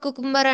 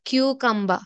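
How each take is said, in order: First: It begins with 'koo' and ends in 'ber'. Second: It begins with 'kyoo' and ends in 'ba'. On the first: The speaker calls it wrong. "కుకుంబర్ కుకుంబర్ అంటారండి అందరూ" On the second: The speaker calls it right. "కానీ దీన్ని క్యూకంబా అనాలి"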